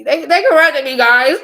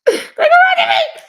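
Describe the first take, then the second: First: Mock outrage. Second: High, slow, laughing wail; cracking up over her own complaint; laughing squeal. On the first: Mock complaint to viewers. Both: Real, not acted.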